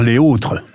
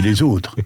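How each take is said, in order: First: The s is not linked to the vowel. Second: A z sound links into the vowel. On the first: The speaker calls it wrong. "on va pas dire les autres" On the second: The speaker calls it right. "on dit les autres"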